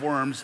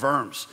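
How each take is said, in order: First: The name begins with a W sound. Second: The name begins with a V sound. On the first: The speaker calls it wrong. "it's not Diet of Worms" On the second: The speaker calls it right. "In German, you pronounce the W as a V"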